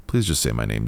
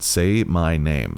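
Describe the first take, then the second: First: Said in the usual way. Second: Slow, drawn-out say my name with weight on say; slow demand. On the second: Acted. Drunk officer insisting over radio, slow and commanding. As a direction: drag out say my name as an order.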